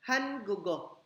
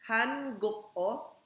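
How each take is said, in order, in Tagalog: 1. Ang k ay nakakabit sa patinig at nagiging g. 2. Nananatiling hiwalay ang k bago ang huling patinig.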